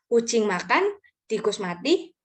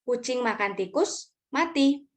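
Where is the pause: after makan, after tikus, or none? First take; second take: after makan; after tikus. First: There is a pause after the second word. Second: There is a pause before the last word. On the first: The cat eats, and the rat dies. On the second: The cat eats the rat and then dies.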